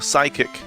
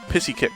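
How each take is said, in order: First: The word begins with a 'sigh' sound. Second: The word begins with a 'piss' sound. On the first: The speaker calls it right. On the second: The speaker calls it wrong.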